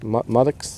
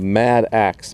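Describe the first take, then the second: First: The word sounds like 'modex'. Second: The word sounds like 'mad axe'. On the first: The speaker calls it right. "but it's actually a modex" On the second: The speaker calls it wrong. "I call it a mad axe"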